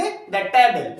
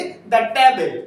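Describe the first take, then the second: First: "द table" with a short "thuh" for "द"; "the" before a consonant. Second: "द table" with "द" said short as "thuh"; "the" before a consonant. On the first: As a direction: repeat "द table", the article clipped to "thuh". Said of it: "क्या पढ़ेंगे इसे?". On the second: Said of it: "क्या पढ़ेंगे?". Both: Shown as a demonstration.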